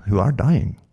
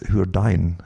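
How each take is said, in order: First: ARE given full weight in "who are dying"; "are" said full and stressed, not reduced. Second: Said in the usual way. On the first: Real, not acted. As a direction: lean on the word ARE. Repeats phrase to stress a word.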